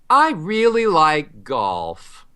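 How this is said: The melody goes down.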